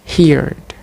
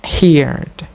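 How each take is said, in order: No difference in how they are said.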